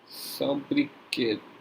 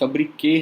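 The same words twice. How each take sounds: First: The final t sound is pronounced. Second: The final t sound is silent. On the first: The speaker calls it wrong. "इसका pronunciation भी कुछ और होता है" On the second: The speaker calls it right. "इसका टी pronounce नहीं होता है"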